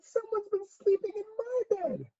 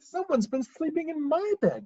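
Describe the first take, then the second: First: It is said in a tiny, small voice. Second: It is said in a middle-sized voice.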